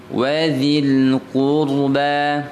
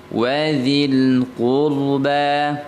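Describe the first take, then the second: Both takes have the same delivery.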